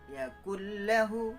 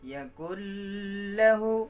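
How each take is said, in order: First: It flows straight into 'lahu' without nasal hum. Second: A nasal hum is held before 'lahu'. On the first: The speaker calls it right. "harus langsung masuk tanpa uh, jeda" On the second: The speaker calls it wrong. "Kalau didengungkan nanti bunyinya begini"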